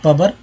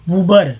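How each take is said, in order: First: The first vowel is a short a sound. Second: The first vowel is an oo sound. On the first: "प में अ लगा के बोलेंगे पबर, ऐसा होता है क्या?" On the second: "पूबर भी नहीं"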